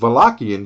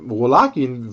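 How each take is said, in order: First: The word begins with a V sound. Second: The word begins with a W sound.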